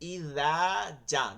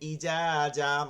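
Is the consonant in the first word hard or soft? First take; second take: soft; hard. First: The first word has a soft consonant, the second hard. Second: Both words have the same hard consonant. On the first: The speaker calls it right. "দেখছেন তফাৎটা, একটা হচ্ছে জিম শক্ত" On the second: The speaker calls it wrong. "মানে হয় জিম বলে দুইটাই"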